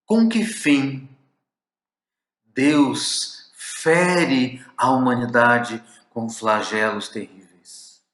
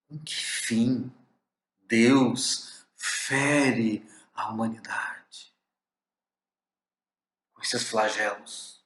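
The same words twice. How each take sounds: First: Slow, louder, anguished plea; pained question. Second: Slow, hushed, aching whisper; pained whisper. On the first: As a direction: cry out the question with slow, raised, aching weight. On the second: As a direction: breathe the question out slowly as a sorrowful whisper. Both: Shown as a demonstration. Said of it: "a entonação, a carga de emoção".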